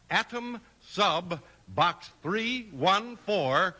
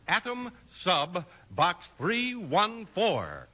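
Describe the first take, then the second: No difference in how they are said.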